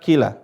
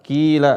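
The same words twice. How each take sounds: First: The vowel after the first consonant is short. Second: The vowel after the first consonant is held long. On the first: The speaker calls it wrong. "bukan dibaca kila" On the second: The speaker calls it right. "Qila dibaca dua harokat"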